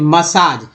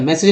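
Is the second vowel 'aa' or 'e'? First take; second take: aa; e. First: The second vowel is said like long 'aa'. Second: The second vowel is said like 'e'. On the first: The speaker calls it right. "दूसरा ए जो है आ बन गया" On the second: The speaker calls it wrong. "मैसेज नहीं"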